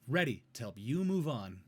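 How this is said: The pitch stays up and sounds clear. The speaker calls it right. "I'm staying in my register on the first one"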